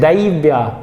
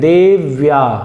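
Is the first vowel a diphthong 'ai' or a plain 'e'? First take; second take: ai; e. First: The first vowel is the diphthong 'ai'. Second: The first vowel is a plain 'e'. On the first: The speaker calls it wrong. "कई लोग क्या बोल देते हैं, दैव्या, दैव्या नहीं है" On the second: The speaker calls it right.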